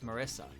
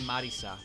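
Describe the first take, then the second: First: The name is pronounced the English way. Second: The name is pronounced the Japanese way. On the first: Only the first name is being said. "I say it as Marissa, because it's an English name" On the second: The full name is being said in Japanese order. "if I say her full name in Japanese order"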